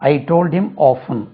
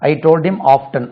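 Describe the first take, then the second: First: The t in often is silent. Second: The t in often is pronounced. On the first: This is the older, long-taught pronunciation. "நாங்கள்லாம் படிக்கும்போது இது ஆஃபன் இப்படி தான் படித்தோம்" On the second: This is a newer pronunciation now also accepted. "இங்கிலாந்தில் ஆஃப்டன், ஆஃப்டன் என்றும் உச்சரிக்கப்படுகிறது. ரெண்டுமே correct"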